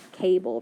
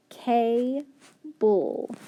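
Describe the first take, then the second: First: Said in the usual way. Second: Cable said slowly, sound by sound. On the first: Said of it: "very good". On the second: Shown as a demonstration. Teacher sounding out cable for students. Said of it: "So K-A".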